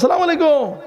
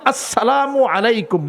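First: The greeting is shortened and slurred together. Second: The greeting is said fully with every syllable. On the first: It is a careless modern style of greeting. The speaker calls it wrong. "কি উচ্চারণ করে মানে উচ্চারণই বোঝা যায় না" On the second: It is the proper traditional greeting. The speaker calls it right. "সুন্নতি সালাম"

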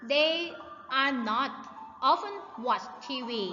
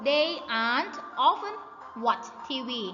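First: 'Are not' is said as two full words. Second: 'Are not' is contracted into one short word. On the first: "ตัวอย่างเขาบอกอีกว่า" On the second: "หรือเราจะอ่านได้อีกแบบนึงก็คือ"

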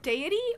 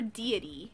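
First: The first syllable sounds like day. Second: The first syllable sounds like dee.

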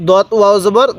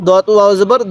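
No difference in how they are said.

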